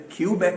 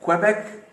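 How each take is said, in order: First: क्यूबेक starting like the letter Q, "kyoo"; mistaken "KYU-bek". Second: क्वेबेक opening with a "kwe" sound; correct "KWE-bek". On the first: Retold or imitated. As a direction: say क्यूबेक wrongly, with a "kyoo" opening. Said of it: "कुछ लोग यहाँ गलती कर जाते हैं". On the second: Shown as a demonstration. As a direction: say क्वेबेक with kw, no "kyoo". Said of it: "क्वेबेक कहते हैं".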